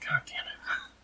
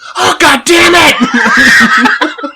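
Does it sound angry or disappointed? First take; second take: disappointed; angry. First: It is said with disappointment. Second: It is said angrily.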